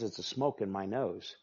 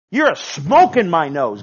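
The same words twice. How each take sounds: First: Low, soft voice of God; God speaking low and soft, before the shout; quiet voice of God. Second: Higher, much louder, disgusted God; God shouting his disgust at pride; God turning on the proud with a loud, higher shout. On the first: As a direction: let God's words drop softly. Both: Acted. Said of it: "God says".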